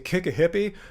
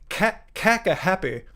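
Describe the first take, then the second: First: It is said in the speaker's normal accent. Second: It is said in an imitated Scottish accent. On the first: "was trying to say kick a hippie" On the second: "He was saying caca happy"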